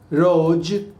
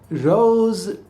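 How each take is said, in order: First: The word ends in a j sound. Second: The word ends in a buzzing z sound. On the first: The speaker calls it wrong. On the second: The speaker calls it right.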